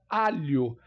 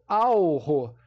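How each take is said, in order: First: The middle consonant is a single palatal lh sound. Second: The middle consonant is an l followed by r. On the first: The speaker calls it right. "Eu falo alho" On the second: The speaker calls it wrong. "Eu não falo alro. Por exemplo, o H com som de, de R"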